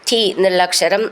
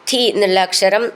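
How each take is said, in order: No difference in how they are said.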